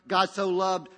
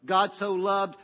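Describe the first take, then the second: No difference in how they are said.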